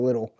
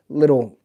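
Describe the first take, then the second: First: Said in the usual way. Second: "little" punched, louder; stress on little. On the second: Shown as a demonstration. Dad stressing how small the racks were, loud "little". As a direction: lean hard on "little". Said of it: "they're all little".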